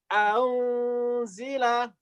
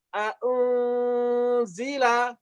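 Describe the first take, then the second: First: The second hamzah is softened toward a w. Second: The second hamzah is pronounced with a full stop.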